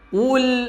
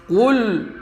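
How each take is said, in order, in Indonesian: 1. Bunyi l di akhir terdengar tipis dan terang. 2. Bunyi l di akhir terdengar tebal dan gelap. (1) "tapi senyum" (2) "jangan ditebalkan, jangan seperti ini"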